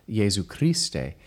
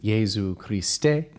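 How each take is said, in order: First: The stress falls on the usual syllables. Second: The stress falls on unusual syllables. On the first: The speaker calls it right. "we'd normally say Jesu Christe" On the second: The speaker calls it wrong. "but Poulenc sets it Jesu Christe"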